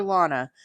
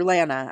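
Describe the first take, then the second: First: Lana said LAH-nuh, with an open "ah"; broad-A pronunciation. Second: Lana said LAN-uh, with the "a" of "cat"; short-A pronunciation. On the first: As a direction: say Lana to rhyme with "Donna". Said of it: "I think I said that right". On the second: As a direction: say Lana to rhyme with "banana". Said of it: "I'm not sure". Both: Shown as a demonstration.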